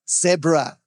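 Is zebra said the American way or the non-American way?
non-American. Zebra is said the non-American way. This is how the rest of the world names it. The speaker calls it right. "It's called a zebra, America"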